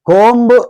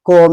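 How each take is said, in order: First: The word ends with a b sound. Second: The word ends with an m sound. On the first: The speaker calls it wrong. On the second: The speaker calls it right.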